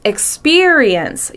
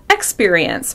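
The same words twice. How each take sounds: First: The first syllable is not stressed. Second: The first syllable carries the stress. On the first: The speaker calls it right. "but it's" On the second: The speaker calls it wrong. "Some people stress the first syllable"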